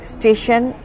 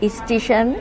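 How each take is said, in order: First: Said in the usual way. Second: স্টেশন said as ইস্টিশন, with an added i at the start; ইস্টিশন pronunciation. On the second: Shown as a demonstration. (স্টেশন শব্দটি ইস্টিশন উচ্চারণে) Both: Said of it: "আরও ব্যাপার আছে".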